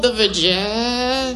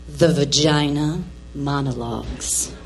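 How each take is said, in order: First: Struggling to say it. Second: Low, reluctant voice for a taboo title; forcing it out. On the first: Embarrassed mother trying to name the show, struggling to say it. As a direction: stall and strain on the last word, dragging it out. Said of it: "a little hard time saying that word". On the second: Embarrassed mother finally naming the show, forcing it out low. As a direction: drop very low and push the words out. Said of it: "I just gotta spit it out". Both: Acted.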